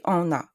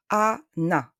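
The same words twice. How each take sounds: First: "Anna" as on-na, first vowel nasalised; wrong nasal A. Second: "Anna" as a-na, open A then clear N; N pronounced. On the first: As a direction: mispronounce "Anna" with a French nasal "an". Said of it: "I don't say Anna". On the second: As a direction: split "Anna" into plain A and NA, no nasal vowel. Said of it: "we have to pronounce N". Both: Shown as a demonstration.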